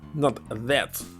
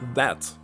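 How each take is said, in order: First: The vowel is narrower and more closed. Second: The vowel is wide and open. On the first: The speaker calls it wrong. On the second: The speaker calls it right. "keep using the raw vowel here. Vowel sound"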